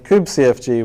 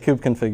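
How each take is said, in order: First: The ending is spelled out as separate letters. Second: The ending is said as the word config. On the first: It names the old command-line tool. The speaker calls it right. "I will say it that way" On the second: It sounds like today's configuration file. The speaker calls it wrong. "if I say kubeconfig, you're thinking of the file that we have today"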